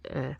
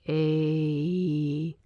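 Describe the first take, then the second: First: The vowel stays pure and steady throughout. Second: The vowel glides into a second vowel sound. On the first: The speaker calls it right. "it should be eh, like just straight up eh" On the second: The speaker calls it wrong. "it's almost like two vowels"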